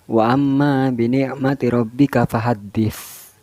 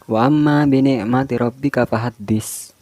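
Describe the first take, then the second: First: The final consonant is a th sound. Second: The final consonant is an s sound. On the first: The speaker calls it right. "Itu pakai sa" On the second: The speaker calls it wrong. "tapi imam pakai sin"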